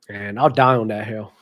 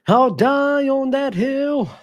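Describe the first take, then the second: First: Said in the usual way. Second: "I'll die on that hill" stretched very slow and pitched much higher; drawn-out emphasis. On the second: Real, not acted. Vlogger doubling down on his Embiid opinion, drawn out high and slow.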